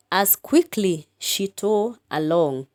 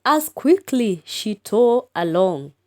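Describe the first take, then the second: First: Said in the usual way. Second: Lifted, spirited recitation; lively poem reading. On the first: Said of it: "exclamation mark". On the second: Shown as a demonstration. Teacher reciting the poem's last line, lifted. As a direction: read it with some lift. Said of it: "The last line".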